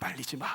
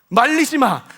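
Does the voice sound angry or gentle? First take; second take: gentle; angry. First: It is said in a mild, gentle tone. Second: It is shouted in a furious, angry tone. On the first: The speaker is only a little upset. The speaker calls it wrong. "이렇게 말씀하셨을까요?" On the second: The speaker is in a furious rage. The speaker calls it right. "그러한 분노가 저는 느껴지는데"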